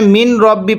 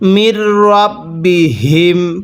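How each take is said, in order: First: The n sound is clearly pronounced before r. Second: The n sound merges into a doubled r. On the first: The speaker calls it wrong. "এখানে মিন রব্বি পড়বেন না" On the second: The speaker calls it right. "নুন সাকিনটা বাদ যাবে"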